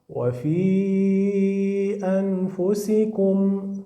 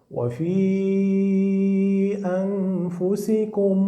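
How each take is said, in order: No difference in how they are said.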